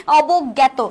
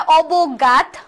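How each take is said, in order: First: অবজ্ঞাত said "obog-gyæto", double g; correct pronunciation. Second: অবজ্ঞাত said as "obog-gat", with an "a" vowel; answer-option pronunciation. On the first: Teacher answering her own question, অবজ্ঞাত as "obog-gyæto". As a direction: give অবজ্ঞাত an open "gyæ" after "obog". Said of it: "সঠিক উচ্চারণ কি?". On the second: Teacher reading out answer choices, অবজ্ঞাত pronounced "obog-gat". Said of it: "শুদ্ধ উচ্চারণ কোনটি". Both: Shown as a demonstration.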